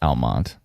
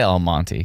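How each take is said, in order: First: The final E sound is silent. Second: The final E sound is pronounced. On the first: The speaker calls it right. "I'm gonna try to do Almont" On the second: The speaker calls it wrong. "I always say Almonte"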